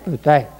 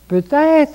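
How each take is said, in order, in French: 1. Ça se dit sur un ton plat, sans chaleur. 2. Ça se dit sur un ton chaleureux, plein d'espoir. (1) "Pas peut-être" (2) "C'est plein d'espérance"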